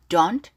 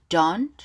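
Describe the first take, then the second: No difference in how they are said.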